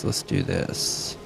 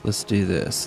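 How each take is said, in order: First: Breathy slow whisper to himself; slow whispered self-hype; whispered pep talk. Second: Said in the usual way. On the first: Real, not acted. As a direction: psych yourself up under your breath. Psyching up before fight.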